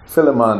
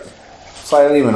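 First: It is said in a Jamaican accent. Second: It is said in a standard accent.

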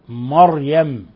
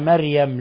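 First: The r sound is heavy and full. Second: The r sound is light and thin. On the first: The speaker calls it right. "ولاحظوا تفخيم الراء" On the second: The speaker calls it wrong. "بعضهم يقرأها مريم"

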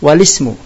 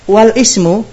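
First: The lam links straight into 'ismu' without a break. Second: A glottal stop separates the lam from 'ismu'. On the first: The speaker calls it right. "Hidupkan lam yang tadinya sukun" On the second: The speaker calls it wrong. "berarti apa bedanya dengan hamzah qat'i?"

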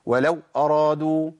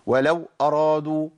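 First: The w sound is abruptly cut off. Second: The same.

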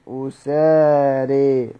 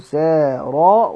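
First: The final long vowel leans toward an 'e' sound. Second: The final long vowel is a plain open 'a'. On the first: "بالإمالة مع ضم الهمزة وفتح السين" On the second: "بضم الهمزة أسارى وبالألف من غير إمالة"

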